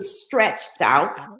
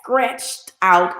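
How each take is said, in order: First: The word begins with an str sound. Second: The word begins with an skr sound. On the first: "an S T R" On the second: "pronounced it as S K R"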